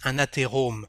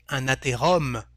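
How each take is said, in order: First: The vowel before the final m is closed. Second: The vowel before the final m is open. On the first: The speaker calls it right. "but un athérome" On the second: The speaker calls it wrong. "We don't say un athérome"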